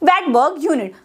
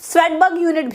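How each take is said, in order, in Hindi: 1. पहला शब्द v ध्वनि से शुरू होता है। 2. पहला शब्द s ध्वनि से शुरू होता है। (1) "एस जो होता है वो साइलेंट होता है" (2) "स्वेडबर्ग यूनिट भी कभी कभी कह देते हैं, नो प्रॉब्लम"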